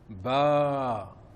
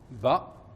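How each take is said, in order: First: The vowel is held long. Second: The vowel is short. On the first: "la voyelle longue, le alif" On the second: "lorsque j'aurai la fatha, ça donnera le son ba"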